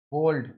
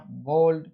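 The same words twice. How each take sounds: First: बोल्ड with an au glide after b; correct way. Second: बोल्ड with a plain o straight after b; wrong way. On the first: Teacher modelling the correct बोल्ड with a glide. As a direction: glide the vowel in बोल्ड, bauld. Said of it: "इस तरह का phonetic transcription". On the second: Teacher showing students the wrong बोल्ड. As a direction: flatten the o in बोल्ड, no glide. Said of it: "ब के बाद ओ बोल दिया". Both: Shown as a demonstration.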